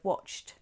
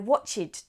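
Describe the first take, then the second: First: The ending adds no extra syllable. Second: The ending adds an extra syllable, "id". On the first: The speaker calls it right. "instead of" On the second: The speaker calls it wrong. "or I watched T V"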